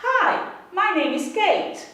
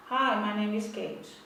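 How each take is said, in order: First: Slow, lively, with a varied singsong melody; lively reading. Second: Slow, low, soft droning monotone with no melody; monotone reading. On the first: Teacher modelling how to keep the class's attention: slow, lively, varied melody. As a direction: read it like a bit of an actor, keeping the class awake. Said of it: "mude o tom de voz". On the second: Teacher showing students how not to read: slow, soft droning monotone. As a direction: read it like a bored drone. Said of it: "não faça uma leitura monótona". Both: Shown as a demonstration.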